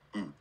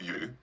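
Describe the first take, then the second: First: The vowel begins without any glide. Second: The vowel begins with a y glide. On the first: The speaker calls it right. "All the Japanese verbs end with a sound u" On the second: The speaker calls it wrong. "It's not you"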